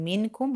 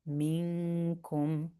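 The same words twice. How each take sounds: First: The n is pronounced clearly and briefly. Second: The n is hidden and nasalized for two counts. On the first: The speaker calls it wrong. "instead of saying minkum" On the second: The speaker calls it right. "We hide the noon... we stress it for two counts"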